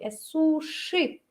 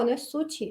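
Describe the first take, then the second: First: The middle consonant is an 'sh' sound. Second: The middle consonant is a 'ch' sound. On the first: The speaker calls it right. "Sh, sh" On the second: The speaker calls it wrong. "Y no te confundas con che"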